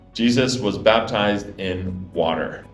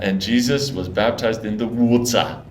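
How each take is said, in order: First: It is said with an American accent. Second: It is said with a South African accent.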